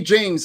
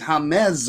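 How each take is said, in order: First: The name starts with an English J sound. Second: The name starts with a breathy H sound. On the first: The speaker calls it wrong. "don't call me James" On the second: The speaker calls it right. "The J in Spanish is pronounced as a like a H"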